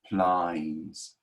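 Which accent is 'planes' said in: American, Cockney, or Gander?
Cockney. The vowel opens toward an 'eye' sound. "Cockney accents ... they would say plines"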